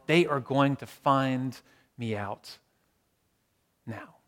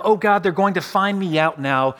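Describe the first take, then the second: First: Drawn out word by word, sinking away; slow it right down, fading to almost nothing; slow, sinking dread. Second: Mild worried outburst, quickened by dread; anxious thought. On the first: Preacher repeating the imagined fear of exposure, slow and hushed. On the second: Preacher voicing an imagined fear of exposure, anxious. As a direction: voice a touch of alarm. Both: Acted.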